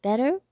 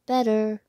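First: BETTER as a question, pitch rising high at the end; asking. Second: BETTER as a firm answer, louder, without the questioning rise. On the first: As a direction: ask "Better?" with a clear upward lift. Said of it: "he asked". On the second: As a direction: confirm "Better" as a statement, louder. Arthur answers Stanley's question. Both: A narrator's reading.

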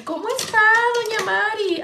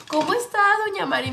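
First: Higher, sing-song greeting of a market lady; nosy market lady. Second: Lightly voiced chatty señora greeting; market lady. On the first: Retold or imitated. A lady in the market greeting grandma, higher sing-song. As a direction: greet grandma like a chatty señora. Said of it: "como esas señoras que". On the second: A lady greets grandma at the market, light sing-song. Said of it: "Así le decía a mi abuelita".

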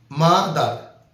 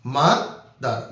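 First: Said in the usual way. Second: Slow mother, broken into its two syllables; slow teacher demo of mother in two parts; split into syllables. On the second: Shown as a demonstration. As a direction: stretch mother out slowly, syllable by syllable. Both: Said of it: "যে শব্দটা ভাঙলে দুইটা অংশ পাওয়া যায়".

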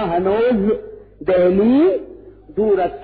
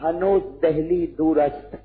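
First: हनोज, Delhi, दूरस्त each set apart with pauses, Delhi loudest; word-by-word repeat. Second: Said in the usual way. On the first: Shown as a demonstration. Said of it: "क्या कहा?". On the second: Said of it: "सिर्फ फारसी में एक जुमला कहा".

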